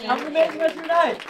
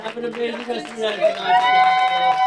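First: Fast, loud repeat of the goodbye; quick excited farewell. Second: High, loud showman farewell; excited showman send-off. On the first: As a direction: rattle it off cheerfully. Quick repeat of closing line. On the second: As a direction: belt out the goodbye. Showman's closing line. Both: Acted.

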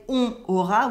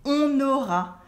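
First: "on aura" with no N linking the words; missing liaison. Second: "on aura" linked as "on-naura"; French liaison. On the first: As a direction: keep "on aura" apart, nasal "on" then "aura". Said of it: "We don't say on aura". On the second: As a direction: carry the N of "on" into "aura". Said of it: "There's a liaison between the N". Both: Shown as a demonstration.

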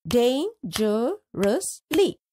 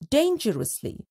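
First: Dangerously drawn out slowly, syllable by syllable. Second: Said in the usual way. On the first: Shown as a demonstration. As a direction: stretch dangerously into parts. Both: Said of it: "Let's split the given words into syllables".

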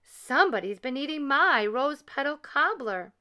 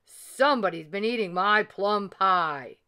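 First: Higher, lightly voiced mama bear; a mild mama bear cry, pitched up; middle-sized bear voice. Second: Lightly voiced papa bear growl; a hint of big papa bear; great big bear voice. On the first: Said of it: "cried Mama Honey Bear in her middle-sized bear voice". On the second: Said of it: "in his great big bear voice". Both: A narrator's reading.

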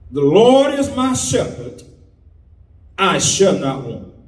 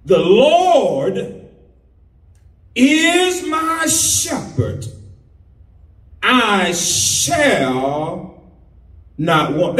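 First: Rushed through the verse; read too fast. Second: Slow, each phrase spaced out with pauses; slow, weighty reading. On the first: Preacher rushing the psalm too quickly. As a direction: rattle it off without weight. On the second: Preacher re-reads the psalm slowly after saying it was rushed. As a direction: let every word of the psalm land. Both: Shown as a demonstration. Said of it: "you read it too fast".

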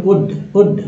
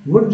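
First: WOOD begun on the rounded vowel, like 'ood'; corrected wood. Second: WOOD begun with a hard 'v' sound, like 'vud'; audible consonant at the start of WOOD. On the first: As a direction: say WOOD as 'ood', with no hard 'v'. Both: Shown as a demonstration. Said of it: "wood नहीं बोलो".

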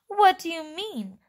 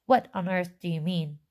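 First: Higher, mildly sharp question. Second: Mildly sharp, exasperated question; sharper question. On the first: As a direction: ask it sharply, pitched up. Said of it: "asked Mister Teeve sharply". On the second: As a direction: ask it a bit sharply, near usual pitch. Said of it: "That sounds a little bit more sharp". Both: Acted.

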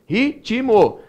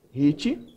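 First: "Ritmo" split into three beats, ri-ti-mo, pitched higher; three-syllable pronunciation. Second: "Ritmo" divided as rit-mo, the t closing the first syllable; two-syllable division. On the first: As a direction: sound out "Ritmo" with an added i after the t, ri-ti-mo. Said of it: "eu pronunciei a voz três vezes". ("Ritmo" em três sílabas separadas, ri-ti-mo) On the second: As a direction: say "Ritmo" in two detached beats, rit, then mo. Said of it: "a gente vai fazer isso". ("Ritmo" dividido em duas sílabas, rit-mo) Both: Shown as a demonstration.

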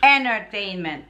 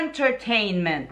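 First: ENTERTAINMENT with the first T dropped; American ENTERTAINMENT. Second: ENTERTAINMENT with the first T sounded; full ENTERTAINMENT. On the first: Wife shows how Americans say it, ENTERTAINMENT without first T. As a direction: say ENTERTAINMENT as "enner-tainment". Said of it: "Some Americans, or most of them, say". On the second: Wife gives her taught form, ENTERTAINMENT with clear T. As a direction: say ENTERTAINMENT as "en-ter-tainment". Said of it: "It's entertainment, right?". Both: Shown as a demonstration.

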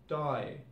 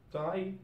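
First: "die" with the vowel backed towards "doy"; Cockney I. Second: "Die" with the standard eye vowel; usual I. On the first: Teacher showing learners Cockney British, "die" with broad I. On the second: Teacher giving the form before Cockney, "Die" with standard I. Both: Shown as a demonstration. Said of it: "pronounce it like I".

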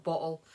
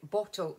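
First: BOTTLE said carefully with a clear middle T; careful, proper-sounding bottle; corrected pronunciation. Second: Bottle in a Scottish accent, glottal middle; homely Scots pronunciation of bottle. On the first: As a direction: enunciate the T in BOTTLE. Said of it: "Sorry, that's my Scottish accent". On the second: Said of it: "that's my Scottish accent". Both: Shown as a demonstration.

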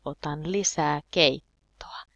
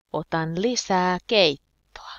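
First: Said in the usual way. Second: Louder, leaning on "lisää"; strong stress on "lisää", louder teaching take; emphatic demo. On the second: Shown as a demonstration. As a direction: punch "lisää" hard, falling.

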